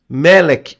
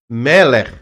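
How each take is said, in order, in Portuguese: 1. A palavra termina com um k forte. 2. A palavra termina com um som rouco de garganta. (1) "Tem algumas pessoas que falam Melek. ... termina com K só, mas o correto não é K" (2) "o correto é Meller ... R arrastado"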